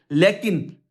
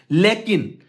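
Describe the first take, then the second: No difference in how they are said.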